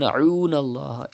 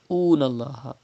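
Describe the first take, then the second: First: It starts with a tight sound from mid-throat. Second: It starts with a simple glottal catch. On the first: The speaker calls it right. "pronounced from the middle part of your throat" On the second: The speaker calls it wrong. "you are reading hamza"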